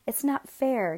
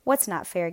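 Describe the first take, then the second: First: Put-on higher-pitched mild childish whine; whining. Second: Mildly dismissive question in an ordinary pitch; shrugging retort. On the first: Jealous Jacob complaining to Mela, mild whine. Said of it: "Jacob whined to Mela". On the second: Mela answering Jacob's complaint, shrugging it off. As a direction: throw the question back, unimpressed. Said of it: "Mela shrugged". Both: A narrator's reading.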